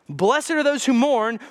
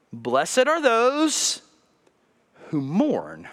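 First: Said in the usual way. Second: Slow reading. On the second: Shown as a demonstration. Pastor reads scripture slowly to congregation, drawn out. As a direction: linger over each word.

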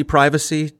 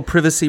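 First: Privacy said with a long i; American long-i privacy, first syllable like "eye"; American pronunciation of privacy. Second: Privacy said with a short i; British short-i privacy, first syllable like "give"; British pronunciation of privacy. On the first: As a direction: say privacy as "PRY-vuh-see". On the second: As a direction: say privacy as "PRIV-uh-see". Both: Shown as a demonstration. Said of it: "how you all mispronounce aluminum".

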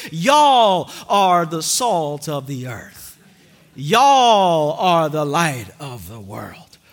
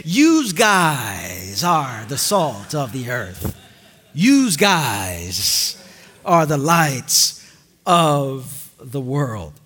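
First: Slow, low Southern drawl on Y'all; Southern accent. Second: Slow, much lower Jersey voice on Yous guys; Jersey accent. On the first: Preacher imitating a Southern Jesus, Southern accent. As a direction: lean into a Southern y'all, slowly. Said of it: "if Jesus was from the South". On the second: Preacher imitating a Jersey Jesus, Jersey accent. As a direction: play a Jersey guy saying Yous guys, low and slow. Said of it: "if Jesus was from Jersey". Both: Shown as a demonstration.

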